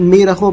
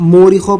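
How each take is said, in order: First: It begins with a long 'ee' sound. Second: It begins with a long 'oo' sound. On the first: "बहुत से लोग इसे मीरखों पढ़ते हैं" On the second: "बहुत से लोग इसको मूरिखों पढ़ते हैं"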